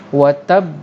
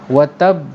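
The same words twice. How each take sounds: The two takes are said the same way.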